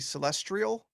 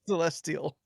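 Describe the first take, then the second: First: It is said with an r, like trial. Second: It is said without an r after the t.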